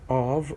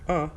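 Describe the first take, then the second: First: A full stressed vowel followed by a v sound. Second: A weak schwa vowel with no v sound. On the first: It is the rarely used emphatic form. "the strong, the stressed one" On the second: The next word starts with a consonant. "without the V sound"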